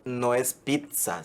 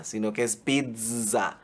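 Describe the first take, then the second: First: Slow, pizza said pitsa; friend's pitsa again. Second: Slow, pizza said piza; friend's piza again. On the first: Replay of gamer friend rejecting pitsa: slow pizza as pitsa. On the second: Replay of gamer friend insisting: slow pizza as piza. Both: Retold or imitated. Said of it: "Va de nuevo".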